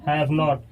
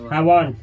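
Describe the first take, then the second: First: It is said as two full words. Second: It is merged into one short word.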